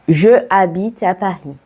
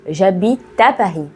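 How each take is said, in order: First: The vowel of 'je' is pronounced separately. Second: The vowel of 'je' is dropped and joined. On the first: The speaker calls it wrong. "Erreur numéro trois" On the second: The speaker calls it right. "on fait les liaisons"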